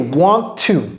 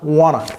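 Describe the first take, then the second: First: Both words are said fully and separately. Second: The two words are merged into one reduced word. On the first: "en fait, c'est want to" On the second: "les Américains aiment dire wanna"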